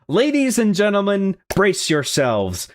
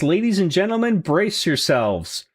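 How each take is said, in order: First: It is read in an old-fashioned showman's announcer voice. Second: It is read in his ordinary speaking voice.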